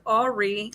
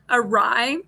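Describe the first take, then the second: First: It sounds like 'Ari', stress at start. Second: It sounds like 'a rye', stress at end. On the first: The speaker calls it wrong. "I thought it's Ari" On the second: The speaker calls it right. "I couldn't pronounce that for a long time"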